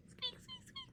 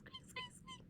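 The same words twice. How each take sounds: First: Very high, soft little squeaks; tiny squeak. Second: Very high, whispered breathless squeaks. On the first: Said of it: "sounds like a little squeak". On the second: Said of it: "angry squeaky sound". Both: Shown as a demonstration.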